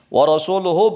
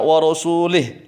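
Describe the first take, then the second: First: The L is followed by an u vowel. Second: The L is followed by an i vowel. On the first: The Messenger also disowns the idolaters. "lamnya dirofakkan" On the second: God disowns the idolaters and also his Messenger. "salah membacanya, lamnya di kasroh"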